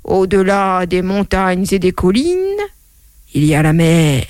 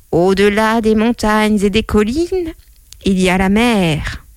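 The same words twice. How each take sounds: First: A hint of a great-grandfather reciting; great-grandfather's saying. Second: Lightly voiced old saying, stretched out; a hint of a great-grandmother reciting; great-grandmother's saying. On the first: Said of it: "mon arrière-grand-père qui disait". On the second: Mother quoting her great-grandmother, lightly voiced recital. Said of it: "mon arrière-grand-mère qui disait".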